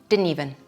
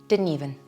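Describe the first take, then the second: Both takes have the same delivery.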